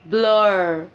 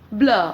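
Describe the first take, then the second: First: The vowel ends with a clear r sound. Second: The vowel ends with no r sound. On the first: "पर अगर उसमें आर आ जाएगा तो हम बोलेंगे" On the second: "कोई ब्रिट बोलेगा"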